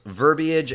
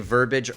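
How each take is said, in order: First: The word is said with three syllables. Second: The word is said with two syllables. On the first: The speaker calls it right. "Take care to pronounce these words in three syllables" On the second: The speaker calls it wrong. "Try not to say verbiage"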